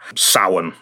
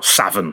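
First: The word gets its traditional Irish pronunciation. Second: The word gets a spelling-based English pronunciation. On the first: The speaker calls it right. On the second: The speaker calls it wrong.

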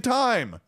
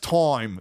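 First: The word is said with an American accent. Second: The word is said with an Australian accent. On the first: "We say time" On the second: "That's time. That's Australian"

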